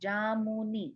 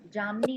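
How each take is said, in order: First: A full 'u' vowel is said in the middle. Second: The middle vowel is dropped, giving two syllables. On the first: The speaker calls it right. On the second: The speaker calls it wrong. "जामनी नहीं"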